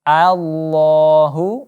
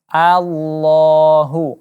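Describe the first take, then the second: First: The opening vowel is a clear open a. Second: The opening vowel is a clear open a.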